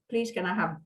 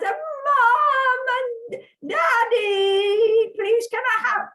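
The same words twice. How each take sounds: First: Said in the usual way. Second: High, loud, drawn-out call; unsubtle childish pleading. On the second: Retold or imitated. Child calling Mom and Daddy to beg for a puppy, loud pleading. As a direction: beg like an excited child yelling for the parents. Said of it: "in my normal subtle fashion".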